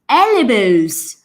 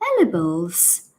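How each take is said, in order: First: It sounds angry and insistent. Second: It sounds puzzled, in a British accent.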